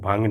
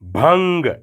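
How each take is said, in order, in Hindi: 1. आख़िरी 'g' कमज़ोर और बिना ज़ोर का है। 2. आख़िरी 'g' ज़ोर लगाकर दबाया जाता है। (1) "इसको भंग नहीं कहना, वो मज़ा ही नहीं रहेगा" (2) "गाफ पर ज़ोर देकर"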